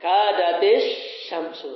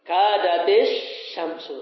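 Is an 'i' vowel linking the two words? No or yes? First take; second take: yes; yes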